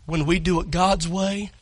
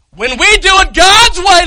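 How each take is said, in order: First: Said in the usual way. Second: When we do it God's way shouted high and loud, God's punched; preaching shout. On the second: Real, not acted. Preacher repeating his point to the congregation in a shout. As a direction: hammer God's way from the pulpit. Repeats line with full force.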